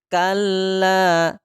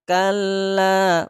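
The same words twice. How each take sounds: Both takes have the same delivery.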